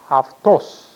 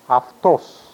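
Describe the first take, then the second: First: The word begins with 'af' with an f. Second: The word begins with 'af' with an f.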